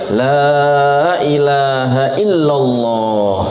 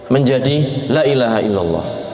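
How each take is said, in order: First: The vowel in the first word 'la' is long. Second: The vowel in the first word 'la' is short. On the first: The speaker calls it right. "lamnya harusnya panjang" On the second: The speaker calls it wrong. "lamnya yang harusnya panjang dibaca pendek"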